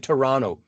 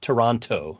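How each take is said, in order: First: The name is said the way locals say it. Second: The name is said the way outsiders say it. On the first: The speaker calls it right. "I'll say Toronto, like I'm supposed to" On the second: The speaker calls it wrong. "not Toronto"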